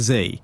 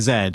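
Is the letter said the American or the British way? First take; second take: American; British. First: The letter is said the American way. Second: The letter is said the British way. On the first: This is how the team from the Americas says it. "they would say Z" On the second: This is how people in the UK say it. "me in the U K would say Z"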